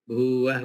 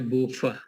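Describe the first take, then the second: First: The middle consonant sounds like w. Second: The middle consonant sounds like f. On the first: The speaker calls it right. "V itu yang bunyinya W" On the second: The speaker calls it wrong. "Bukan bacaannya bufah"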